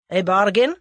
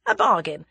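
First: "bargain" loud, rising in a question; sharp query. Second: "bargain" falling, settled statement; firm confirmation. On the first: Bearded man takes Tommy up, sharp questioning "bargain". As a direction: snap back "A bargain?" in disbelief. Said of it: "took him up sharply". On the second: Captive confirms his offer, firm falling "bargain". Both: A narrator's reading.

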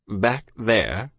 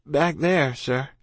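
First: Incredulous officer. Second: Higher-pitched, polite youngster; evasive child. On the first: Officer to evasive child, incredulous. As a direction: echo it with a British officer's disdain. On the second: Child dodging officer's question, higher and polite. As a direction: offer it vaguely, pitched up like a child. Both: A narrator's reading.

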